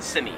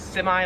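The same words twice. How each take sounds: First: "simi" ending in "ee", as "sem-ee"; Australian pronunciation. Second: "semi" ending in a long I, "sem-eye"; American pronunciation. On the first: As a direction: end "simi" on a long ee. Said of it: "In Australian English". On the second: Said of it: "with the I". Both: Shown as a demonstration.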